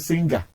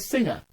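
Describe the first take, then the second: First: The ng is not said as one nasal sound. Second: The ng is said as one pure nasal sound. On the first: The speaker calls it wrong. "He's not a singer" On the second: The speaker calls it right. "He's a singer"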